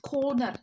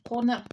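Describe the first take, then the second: First: The O vowel is long, Glasgow style. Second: The O vowel is short, standard English style.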